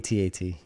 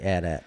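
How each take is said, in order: First: It is spelled out letter by letter. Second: It is said as a single word. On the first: The speaker calls it right. "You say it by the the letters" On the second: The speaker calls it wrong. "Nobody says that"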